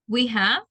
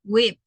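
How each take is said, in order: First: Both words are said fully and separately. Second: The two words merge into one short syllable.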